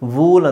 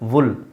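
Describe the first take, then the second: First: The vowel is a long oo sound. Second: The vowel is a short u sound. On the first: The speaker calls it wrong. "ವೂಲ್ ಅಂತ ಹೇಳಲ್ಲ ಇದನ್ನು" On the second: The speaker calls it right. "ಇದು ವುಲ್"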